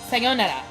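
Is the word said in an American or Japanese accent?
Japanese. It is said with a Japanese accent. The speaker calls it right. "Sayonara is Japanese"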